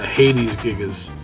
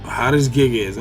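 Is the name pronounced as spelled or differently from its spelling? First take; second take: differently; as spelled. First: The name is pronounced differently from its spelling. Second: The name is pronounced just as it is spelled. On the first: This is how other people would probably say it. "someone else would probably say" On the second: This is the speaker's own habitual pronunciation. "just the way it's spelled"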